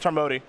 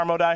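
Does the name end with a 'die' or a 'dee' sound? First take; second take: dee; die. First: It is run together, ending in 'dee'. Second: It ends with a separate word, 'die'. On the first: The speaker calls it wrong. "not the Tarmody" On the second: The speaker calls it right. "let's talk about the Tarmo die"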